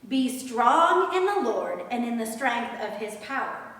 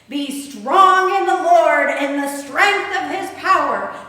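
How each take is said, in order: First: It is said in an ordinary speaking voice. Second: It is said in a big, booming voice.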